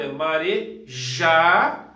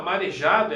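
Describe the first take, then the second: First: Marejado, slow and louder, the já drawn out and hit hard; stress on the syllable já. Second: Said in the usual way. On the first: Shown as a demonstration. Teacher showing students the strong syllable, slow and loud on já. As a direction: stretch out marejado and punch the já. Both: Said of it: "a sílaba mais forte é o já".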